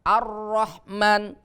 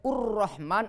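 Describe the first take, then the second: First: The word begins with the vowel a. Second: The word begins with the vowel u. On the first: The speaker calls it right. "al kalau ada lam berarti dibacanya hamzah fathah" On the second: The speaker calls it wrong. "Tidak boleh"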